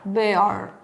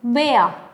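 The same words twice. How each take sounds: First: "bear" ending on a clear R; American bear, R sounded. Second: "bear" as "beh-ah", R dropped; British bear, silent R. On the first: Teacher repeating American bear with R. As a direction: lower "bear", with the R held. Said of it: "En American English suena esa R". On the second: Teacher repeating British bear without R. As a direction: finish "bear" on an open vowel. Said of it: "en British English no suena esa R". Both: Shown as a demonstration.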